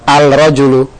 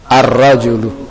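First: The article keeps a clear l, sounding 'al'. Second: The article blends into the r, sounding 'ar'. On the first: The speaker calls it wrong. "Bukan al-rajulu" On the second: The speaker calls it right. "Yang betul ar-rajulu"

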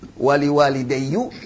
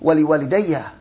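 First: The last word ends in an u vowel. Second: The last word ends in an a vowel. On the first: The speaker calls it wrong. "Enggak bisa dibaca wali wa lidayyu" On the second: The speaker calls it right. "Kan fathah paling ringan"

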